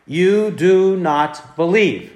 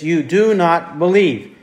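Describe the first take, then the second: First: Slow, each word weighed; slow emphatic quote. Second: Said in the usual way. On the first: Shown as a demonstration. Preacher slowly quoting Jesus' rebuke to the unbelieving crowd, solemn.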